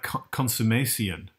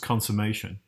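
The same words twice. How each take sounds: First: Every sound in the word is fully pronounced. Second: Some sounds in the word are reduced. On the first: "You hear all those sounds" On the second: "not just consummation"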